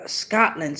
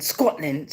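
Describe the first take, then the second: First: Said in the usual way. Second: Low, soft try at Scottish, rounded O in "Scotland,"; attempted Scottish accent. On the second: Shown as a demonstration. Reader testing an accent on a viewer's name origin, tentative Scottish. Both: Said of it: "see if I can get me a Scottish accent".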